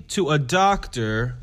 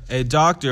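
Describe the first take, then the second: First: Said in the usual way. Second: "doctor" set apart as if in quote marks; air quotes. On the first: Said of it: "doing air quotes". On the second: Real, not acted. On the home-injection doctor, "doctor" stressed in audible air quotes. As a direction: put sceptical stress on "doctor". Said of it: "if y'all could see me doing air quotes".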